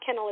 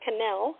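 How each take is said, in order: First: The name sounds like the word kennel. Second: The name does not sound like kennel. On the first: The speaker calls it wrong. "people always say Kennel, but it's not Kennel" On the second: The speaker calls it right. "it's Cannell"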